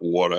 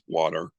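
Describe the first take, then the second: First: It is said with a New York accent. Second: It is said with a neutral accent. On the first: The speaker calls it wrong. "It's not" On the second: The speaker calls it right.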